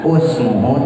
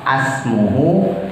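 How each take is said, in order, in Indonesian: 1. Kata itu diawali dengan vokal u. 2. Kata itu diawali dengan vokal a. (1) "bukan usmuhu" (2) "bukan asmuhu"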